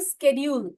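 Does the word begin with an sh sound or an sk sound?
sk. The word begins with an sk sound. This is the American form. "स्केड्यूल is US English"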